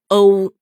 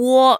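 First: The vowel is a single pure o sound. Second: The vowel starts with a short oo glide. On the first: The speaker calls it right. "就应该读作哦" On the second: The speaker calls it wrong. "那么它就不能发出呜的这个音，就读喔是不对的"

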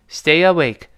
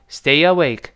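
Both takes have the same delivery.

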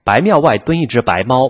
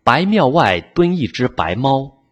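First: It is said quickly. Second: It is said at a normal, steady pace.

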